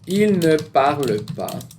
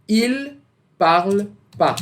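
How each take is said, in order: First: The word ne is clearly pronounced. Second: The word ne is left out entirely.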